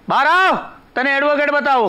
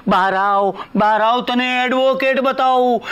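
First: Higher-pitched summons; raised, brisk summons; calling someone out. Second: Slow, stretched, pompous announcement; drawn-out showman's self-quote; grand re-enactment. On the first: Acted. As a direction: call into the next room. Calls her out to see advocate. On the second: Retold or imitated. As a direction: draw out each title with mock reverence. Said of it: "એટલે મારો કહેવાનો મતલબ એમ છે".

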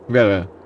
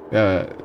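No difference in how they are said.

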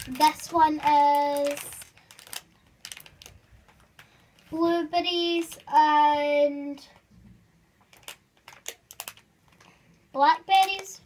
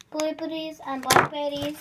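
First: Drawn-out, very slow label reading. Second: Said in the usual way. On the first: Shown as a demonstration. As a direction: stretch each word out slowly.

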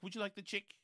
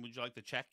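First: Imitated New Zealand accent, check as "chick"; New Zealand vowels, "check" turned into "chick". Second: Said in the usual way. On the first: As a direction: lightly put on a New Zealand accent, raised pitch. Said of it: "that accent". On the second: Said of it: "You know, I mean".

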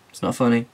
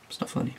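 First: Said in the usual way. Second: Whisper. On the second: Real, not acted. Repeats line, second take hushed.

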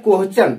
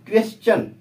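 First: क्वेश्चन said as "कोहचन", a wrong slurred sound with no clear k-w; wrong pronunciation. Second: क्वेश्चन said properly as "क्वेस-चन", clear k-w and s before the ch; correct pronunciation. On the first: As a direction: mispronounce क्वेश्चन the way students say it, "कोहचन". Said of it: "इसका सही उच्चारण नहीं होता है". (क्वेश्चन को गलत "कोहचन" की तरह बोलें) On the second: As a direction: model the right way to say क्वेश्चन, "क्वेस-चन". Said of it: "क्या होता है?". (क्वेश्चन का सही उच्चारण "क्वेस-चन") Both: Shown as a demonstration.

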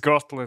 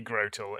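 First: Grotle as GROT-ul; short O in Grotle. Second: Grotle as GROH-tul; long O in Grotle. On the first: Showing the rejected pronunciation, Grotle with short O. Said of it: "it would have two T's". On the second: Answering which pronunciation is right, Grotle with long O. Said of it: "is it Grotle or is it Grotle". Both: Shown as a demonstration.

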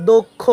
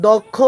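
First: দক্ষ with a closed o, "dokkho"; correct pronunciation. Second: দক্ষ with an open "aw", "dawkkho"; wrong pronunciation. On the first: Teacher answers the question, দক্ষ pronounced "dokkho". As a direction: round the first vowel of দক্ষ to o. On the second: Teacher shows what not to say, দক্ষ mispronounced "dawkkho". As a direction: open up the first vowel of দক্ষ. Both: Shown as a demonstration. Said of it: "না বলে বলবো কি".

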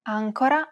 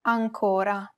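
First: "Ancora" stressed on the opening AN; "Ancora" with AN strong and co-ra light; stress on first syllable. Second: "ancora" stressed on CO, with that vowel lengthened; "ancora" with a long, strong CO; stress on middle syllable. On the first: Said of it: "help the reader distinguish between two words". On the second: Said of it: "which would otherwise appear the same". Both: Shown as a demonstration.

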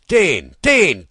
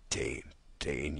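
First: Loud, much higher bellowed call of his name; shouted call. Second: Quiet, lower, slowed repeat of the name; soft echo. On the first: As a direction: bark the name across the camp. Soldiers calling for the water-carrier. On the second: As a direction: let the name fade like a memory. Soft echo ending the poem. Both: Acted.

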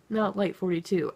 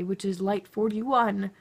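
First: "not" hit first, then "light forty-two" falling away; stress on not. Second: Slow, careful "light forty-one" with each number spelled out. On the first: Vlogger correcting the shade everyone else buys, stress on not. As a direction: punch "not" to rule out the wrong shade. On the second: Beauty vlogger naming her exact shade, slow and careful. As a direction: land "forty-one" deliberately, beauty guru correcting fans on her shade. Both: Shown as a demonstration.

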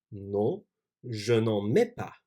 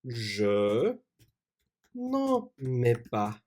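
First: Said in the usual way. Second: Slow dictation. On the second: Shown as a demonstration.

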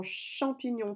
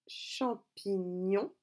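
First: Said in the usual way. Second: Champignon very slowly, cham-pi-gnon; syllable by syllable. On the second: Shown as a demonstration. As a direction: split champignon into three drawn-out syllables. Breaking the word into syllables. (champignon découpé lentement en syllabes)

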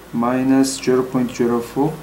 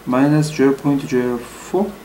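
No difference in how they are said.

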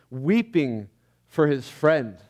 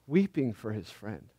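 First: Said in the usual way. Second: "Weeping for his friend" echoed much softer, falling away; a quiet echo that lingers on "Weeping"; hushed repeat. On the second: Shown as a demonstration. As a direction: let the words sink into a soft, reverent hush.

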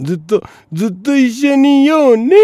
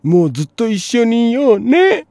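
First: High, loud sing-song promise; mock lovey girlfriend. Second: High sing-song sweet couple voice; mock lovey girlfriend. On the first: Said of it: "大体そういうもんやね". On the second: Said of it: "十代の頃の約束なんてお前". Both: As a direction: coo it like a lovestruck teen.

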